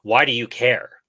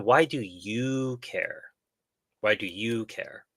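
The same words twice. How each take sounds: First: Sharp, accusing challenge; hostile tone. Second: Slow, gentle genuine question; curious tone. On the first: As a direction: ask it like an accusation. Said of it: "let me try to imitate the tone". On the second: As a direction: ask it with real curiosity. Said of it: "rephrase it so the tonality sounds right". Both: Shown as a demonstration.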